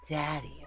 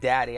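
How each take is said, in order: First: The word is said in a sultry, sexy way. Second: The word is said in a plain, neutral way. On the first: The speaker calls it right. "I had to make it sound sexy" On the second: The speaker calls it wrong. "I can't just say like Daddy"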